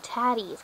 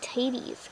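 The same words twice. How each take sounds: First: TATTIES with short A, as in "cat". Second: TATIES with "tay" as in potatoes; long A in taties. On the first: Reading the two T's, TATTIES said with short A. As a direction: say TATTIES as "tat-ees". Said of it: "'cause that has two T's". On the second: Puzzling over the food's name, TATIES said as "tay-tees". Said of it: "'cause, like, mashed potatoes". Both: Shown as a demonstration.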